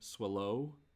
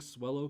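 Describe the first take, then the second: First: The stress is on the second syllable. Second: The stress is on the first syllable.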